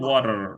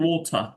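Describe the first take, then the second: First: It is said in an American accent. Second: It is said in a British accent. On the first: "আমেরিকানে হচ্ছে ওয়াটার" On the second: "ব্রিটিশে হচ্ছে ওথা"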